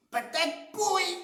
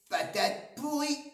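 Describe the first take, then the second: First: Even higher, louder, hammering "pourrie"; boy repeating the insult, shriller and louder; louder sulky insult. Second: Put-on much higher kid voice spitting "pourrie"; boy sulking at his mother, high sulky voice; sulky kid insult. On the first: Acted. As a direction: push the brat's taunt up. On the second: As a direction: play a grumpy little boy. Simon's rude reply.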